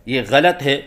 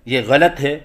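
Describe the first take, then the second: Both takes have the same delivery.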